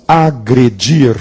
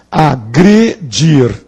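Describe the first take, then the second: First: Said in the usual way. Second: "agredir" split into three slow syllables. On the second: Shown as a demonstration. Teacher pointing out the penultimate syllable, broken up slowly. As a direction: pause between the syllables of "agredir". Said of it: "é na penúltima sílaba".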